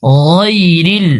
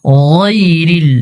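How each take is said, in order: The two takes are said the same way.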